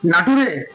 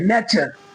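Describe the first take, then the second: First: The ending is read as 'too-ray', letter by letter. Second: The ending is pronounced as 'cher'. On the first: The speaker calls it wrong. "नाटुरे नहीं ना" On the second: The speaker calls it right. "T U R E को चर बोलते हैं"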